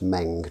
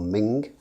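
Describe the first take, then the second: First: The vowel sounds like the one in 'bed'. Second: The vowel sounds like the one in 'bin'. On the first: The speaker calls it right. "That's Meng" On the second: The speaker calls it wrong. "or Ming as I've heard it pronounced"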